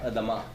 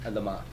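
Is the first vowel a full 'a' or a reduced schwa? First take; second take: schwa; schwa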